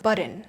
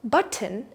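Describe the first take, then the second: First: The middle T is softened, second syllable reduced. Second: The middle T is fully pronounced. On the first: "a natural way to say it is button" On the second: "Button is the textbook way to say it"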